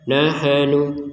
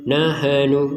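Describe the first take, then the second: Both takes have the same delivery.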